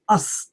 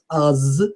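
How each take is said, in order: First: The word is short with a hissing S. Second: The word ends in a buzzing, voiced sound. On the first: The speaker calls it right. "short and with a nice S" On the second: The speaker calls it wrong.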